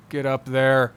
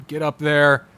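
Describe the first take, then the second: No difference in how they are said.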